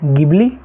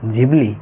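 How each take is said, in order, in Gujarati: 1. આ શબ્દ સાદા hard g થી શરૂ થાય છે. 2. આ શબ્દ j અવાજથી શરૂ થાય છે. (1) "ગિબલી કે ઘીબલી નથી" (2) "એનું જે રિયલ પ્રોનાઉન્સિએશન છે એ જીબલી છે"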